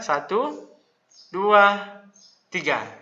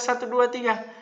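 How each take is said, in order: First: The numbers are separated by clear pauses. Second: The numbers run together without pauses. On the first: Each number is in its own row. The speaker calls it right. "dikasih jeda" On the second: The numbers form a single row. The speaker calls it wrong. "Jangan dibaca satu, dua, tiga"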